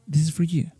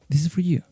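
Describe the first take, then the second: First: The word 'for' is reduced to 'fur'. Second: The same.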